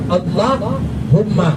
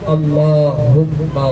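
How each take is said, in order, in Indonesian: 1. Berhenti setelah Allah, lalu mengucapkan humma. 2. Allah dan humma tersambung tanpa berhenti. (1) "tidak boleh dibaca Allahumma. Kalau Allahumma, ini hanya itu dah mati. Allah mati" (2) "tapi langsung disambung"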